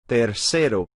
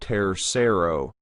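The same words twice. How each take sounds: First: The R is a quick tongue flap. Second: The R is said like an English R. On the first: The speaker calls it right. "We want to flap the R" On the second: The speaker calls it wrong. "That's again an English accent pronunciation of the R"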